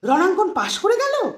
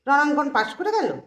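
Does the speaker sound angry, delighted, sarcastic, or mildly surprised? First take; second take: delighted; sarcastic. First: It sounds surprised and very happy. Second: It sounds sarcastic and mocking. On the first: The passing was unexpected and is welcome news. "অবাক সাথে আনন্দ।" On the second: The passing is mocked as undeserved. "এখানে কিন্তু তির্যক।"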